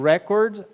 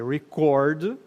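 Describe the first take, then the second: First: The stress is on the first syllable. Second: The stress is on the second syllable. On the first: It is a noun meaning a recording. "record é gravação" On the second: It is a verb meaning to record. "E record, gravar"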